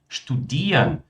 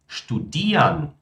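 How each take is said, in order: No difference in how they are said.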